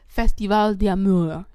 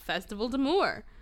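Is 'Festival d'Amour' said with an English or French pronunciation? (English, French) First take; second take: French; English. First: It is said with a French-style pronunciation. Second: It is said with an anglicized pronunciation. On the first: The speaker calls it right. "I said it right once to prove that I can" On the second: The speaker calls it wrong. "I know I'm saying it entirely wrong"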